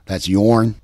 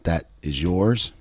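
First: "yourn" said with a short rolled r-n ending, louder; Appalachian yourn. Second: Said in the usual way. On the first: Shown as a demonstration. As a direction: drop the s, say "yourn" in hill dialect. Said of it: "somebody might say". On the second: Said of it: "instead of saying".

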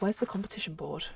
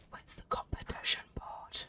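First: Said in the usual way. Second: Breathy whispered question; hushed, voiceless whisper. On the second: Real, not acted. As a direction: whisper it as if to yourself. Searching quietly in the game.

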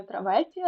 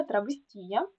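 First: Травестія stressed on the second syllable ВЕ; wrong stress on ВЕ. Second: Травестія stressed on ТІ; stress near the end on ТІ. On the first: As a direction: say траВЕстія, leaning on ВЕ. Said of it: "так, не травестія". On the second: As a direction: say травесТІя, leaning on ТІ. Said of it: "всі слова на останній склад". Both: Shown as a demonstration.

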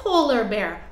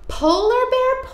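First: Said in the usual way. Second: First Polar Bear sung high; high call. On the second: Shown as a demonstration. Sing-song call, high then low.

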